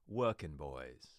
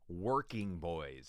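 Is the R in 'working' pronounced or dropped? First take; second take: dropped; pronounced. First: The R in 'working' is dropped. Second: The R in 'working' is clearly pronounced. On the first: "That would be the British way of saying it" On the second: "get those hard R's as we Americans like"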